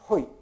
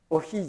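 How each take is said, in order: First: It starts with an h sound before the vowels. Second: It starts with a vowel, h in the middle. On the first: The speaker calls it right. "だからほい" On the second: The speaker calls it wrong. "おひじゃなくて"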